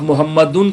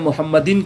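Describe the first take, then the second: First: The final syllable has a u vowel. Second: The final syllable has an i vowel. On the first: "गलत हो जाएगा" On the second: "गलत हो जाएगा"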